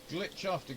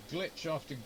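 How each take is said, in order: Both takes have the same delivery.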